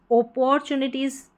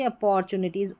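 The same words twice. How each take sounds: First: अपॉर्चुनिटीज misread with an initial "o", as "oh-por-chu-ni-teez"; wrong pronunciation. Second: अपॉर्चुनिटीज with a short "uh" at the start; correct pronunciation. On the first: Teacher showing what not to say, अपॉर्चुनिटीज begun with "oh". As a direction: start अपॉर्चुनिटीज on "oh" in place of "uh". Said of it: "ना बोल के". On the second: Teacher correcting the first vowel, अपॉर्चुनिटीज begun with "uh". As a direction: say अपॉर्चुनिटीज as "uh-por-chu-ni-teez". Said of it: "ओ को अ". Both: Shown as a demonstration.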